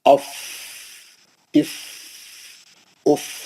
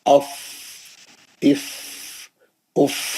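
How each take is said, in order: Both takes have the same delivery.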